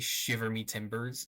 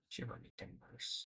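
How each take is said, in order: First: It is said very loudly. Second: It is said very quietly.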